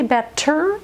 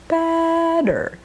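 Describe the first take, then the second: First: The middle consonant is a crisp T sound. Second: The middle consonant is a quick soft D. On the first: The speaker calls it wrong. "Is it wrong to say batter? ... it does not sound characteristically American" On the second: The speaker calls it right. "you want a soft D, which means the tongue flaps behind the teeth"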